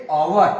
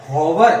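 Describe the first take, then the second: First: ओवर opening straight on the vowel, no h; silent h. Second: हॉवर with the h wrongly sounded; mispronounced hour. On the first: Teacher corrects students' pronunciation, ओवर with silent h. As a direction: say ओवर as "our", dropping the h. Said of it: "इसका उच्चारण हम करेंगे". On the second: Teacher shows students' common mistake, हॉवर with h pronounced. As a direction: say हॉवर with an audible h at the start. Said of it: "हॉवर नहीं भैया". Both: Shown as a demonstration.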